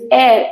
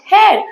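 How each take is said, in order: First: The word begins with a vowel, no h. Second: The word begins with an audible h sound. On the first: The speaker calls it right. "the pronunciation of H E I R is air" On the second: The speaker calls it wrong. "and not hair"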